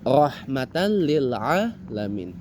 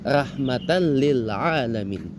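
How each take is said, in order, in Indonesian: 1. Vokal pertama bunyinya seperti o tebal dan bulat. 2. Vokal pertama bunyinya seperti a tebal dan terbuka. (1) "Mestinya kan" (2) "dibacanya kalau di Minang dan di Bugis itu"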